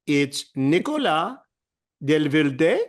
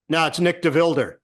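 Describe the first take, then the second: First: Nicolas Delvilde said with French sounds, rising at the end; French pronunciation. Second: Nick DeVilder said flat and English, falling; Americanized name. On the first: Announcer insisting to McEnroe on the French pronunciation. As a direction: give Nicolas Delvilde its French vowels, ending on a lift. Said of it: "I go". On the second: McEnroe correcting the announcer, bluntly Americanized. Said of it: "He says". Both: Retold or imitated.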